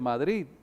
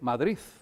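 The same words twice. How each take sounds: First: The word ends with a plain d sound. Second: The word ends in the Madrid-style final sound. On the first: "no dice Madrid" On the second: "sino que dice Madrid"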